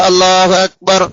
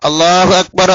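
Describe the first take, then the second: The two takes are said the same way.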